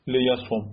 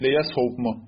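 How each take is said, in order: First: لیسوم said le-ya-som, with no v; le-ya-som, the cluster removed; w dropped. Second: لیسوم said le-ya-sovm, with the v sounded; le-ya-sovm, consonant cluster at the end; heavy jussive form. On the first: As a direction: end لیسوم on a short o and m. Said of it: "کلاً حذفش بکنی". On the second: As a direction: keep the v before the final m in لیسوم. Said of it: "خیلی سخت تلفظش". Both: Shown as a demonstration.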